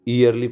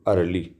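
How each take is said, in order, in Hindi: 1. यह शब्द 'y' ध्वनि से शुरू होता है। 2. यह शब्द सामान्य स्वर ध्वनि से शुरू होता है। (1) "ईयरली पढ़ना चाहिए इसको" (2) "लेकिन इसको पढ़ेंगे हम अर्ली"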